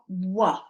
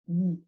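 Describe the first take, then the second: First: A w sound followed by an added vowel. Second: A bare w sound with no vowel after. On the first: The speaker calls it wrong. "It's not wa. Okay, that's two sounds" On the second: The speaker calls it right. "the sound I'm making when I am um, pronouncing this letter is w"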